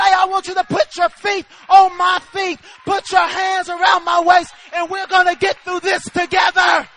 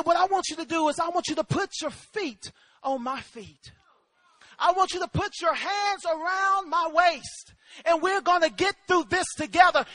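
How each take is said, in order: First: Loud, ringing shout; rousing, shouted reassurance; Jesus' promise, preached. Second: Measured, gentle instruction; steady, unhurried comforting voice; calm fatherly reassurance. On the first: Acted. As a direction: proclaim each phrase with full force. Same words preached as Jesus speaking. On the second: Retold or imitated. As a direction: talk a frightened child through it. Father calmly instructing frightened son.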